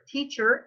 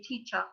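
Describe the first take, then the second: First: It is said in an American accent. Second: It is said in a British accent. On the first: "Teacher is American" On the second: "In British English you say teacher"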